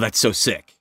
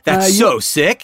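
First: The voice falls at the end. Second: The voice rises at the end. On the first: "I would always say something like" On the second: "you'd always go up and go"

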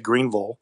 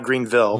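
First: It is pronounced the way locals say it. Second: It is pronounced the way outsiders say it. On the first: The speaker is from the town. The speaker calls it right. "if you're from Greenville, you say Greenville" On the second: The speaker is not from the town. The speaker calls it wrong. "not Greenville"

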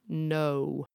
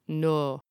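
First: The vowel glides between two sounds. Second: The vowel is a single flat sound. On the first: "a diphthong or a bendy vowel like no" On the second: "a single flat vowel like no"

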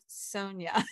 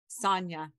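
First: The first syllable sounds like 'soh'. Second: The first syllable sounds like 'sah'. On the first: The speaker calls it wrong. "not Sonia" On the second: The speaker calls it right. "S-A, Sonia"

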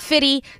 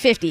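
First: The middle f is dropped, giving fitty. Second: The middle f is kept, giving fifty. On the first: The speaker calls it wrong. "It is not Fitty" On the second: The speaker calls it right. "It's always been 50"

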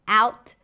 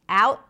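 First: The final T is released with a pop. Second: The final T is held, not released. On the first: "or a pop T" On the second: "Could be a held T"

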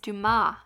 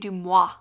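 First: The name ends with a plain 'mah' sound. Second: The name ends with a 'mwah' sound. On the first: The speaker calls it right. "It's Dumas" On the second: The speaker calls it wrong. "You say Dumois"

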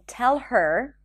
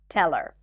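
First: The H in 'her' is pronounced. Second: The H in 'her' is dropped. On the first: "So instead of saying tell her that she can go" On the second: "the H in pronouns like her ... is dropped when it's unstressed"

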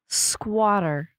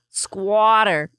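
First: It is said in a plain accent. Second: It is said in a New York accent.

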